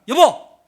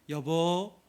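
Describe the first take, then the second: First: It is said in a harsh, picking-a-fight tone. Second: It is said in a gentle, loving tone.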